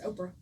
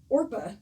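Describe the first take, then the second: First: The r sound comes after the p. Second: The r sound comes before the p. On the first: This is how people commonly say the name. "people have mispronounced her name for so long" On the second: This is the name on the birth certificate. "on her birth certificate, it is Orpah"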